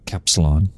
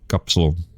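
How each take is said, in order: First: The word is pronounced with English sounds. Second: The word is pronounced with Dutch sounds. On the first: "I said it in an English way" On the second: "in Dutch we say a kapsalon"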